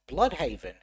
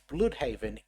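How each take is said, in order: First: The first vowel sounds like English 'blood'. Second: The first vowel is a rounded German 'ü' sound. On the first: This is the name in the main universe. "pronounced as Bloodhaven in the main universe" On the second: This is the name in the alternate universe. "they use pronunciation of the actual German letter"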